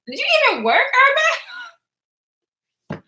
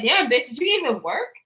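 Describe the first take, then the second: First: Higher, laughing through the repeat. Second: Said in the usual way. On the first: Retold or imitated. Imagined viewers teasing her, laughing. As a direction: crack up while repeating the tease.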